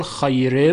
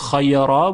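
First: خیره with a thin R before the e sound; light R. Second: خیرا with a full, thick R before the ā; heavy R. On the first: Teacher contrasting joined forms, light R in خیره. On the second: Teacher contrasting joined forms, heavy R in خیرا. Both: Shown as a demonstration.

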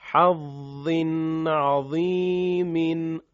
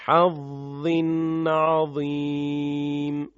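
First: عظیم said as عظیمٍ with the -in ending, slow; connected reading. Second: عظیم stopped on a silent م, slow and chanted; pausal form. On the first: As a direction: read حظ عظیم joined, keeping the tanwin. (حظٍ عظیمٍ با تنوین در وصل) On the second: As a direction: stop on عظیم dropping the tanwin. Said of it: "بعد به صورت وقف". (وقف روی عظیمْ بدون تنوین) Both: Shown as a demonstration.

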